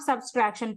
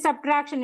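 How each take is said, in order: First: It is said with an extra s sound. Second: It is said with no extra s sound. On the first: The speaker calls it wrong. "It is not subtraction. Please don't add S" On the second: The speaker calls it right. "it is subtraction"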